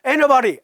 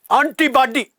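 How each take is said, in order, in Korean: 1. 미국식 억양으로 얼버무려 발음했어요. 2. 한국식 억양으로 음절마다 또박또박 발음했어요. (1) "구글 번역기 돌리면요 ... 애너바리 이렇게 말합니다" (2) "그냥 또박또박 콩글리시로"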